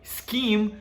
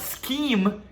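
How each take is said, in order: The two takes are said the same way.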